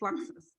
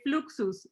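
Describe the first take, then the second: First: It is said with English vowel sounds. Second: It is said with Spanish vowel sounds. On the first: Spanish speakers do not say it this way. "we don't say Fluxus" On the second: This is how Spanish speakers say it.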